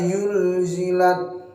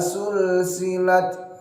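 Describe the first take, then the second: First: The word begins with a y sound. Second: The word begins with an s sound. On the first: "jangan sampai dirubah menjadi huruf ya" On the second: "jangan sampai dirubah menjadi huruf sin"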